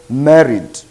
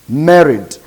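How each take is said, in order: No difference in how they are said.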